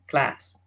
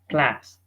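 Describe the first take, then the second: The two takes are said the same way.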